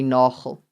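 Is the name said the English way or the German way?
German. The name is said with a German pronunciation. The bearer of the name was German or Dutch. "Nagel with a G"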